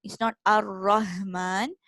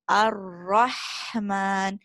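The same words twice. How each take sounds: First: "Ar-Rahman" with a plain deep throat h; wrong deep Ha. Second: "Ar-Rahman" very slow with airy middle throat Ha; correct middle Ha. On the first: Teacher showing the mistake to avoid. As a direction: say "Ar-Rahman" with an ordinary h. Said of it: "shouldn't sound like the deep throat ha". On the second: Teacher giving the correct Ha after the wrong one. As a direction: drag out "Ar-Rahman" with a breathy Ha. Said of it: "it's Ar-Rahman". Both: Shown as a demonstration.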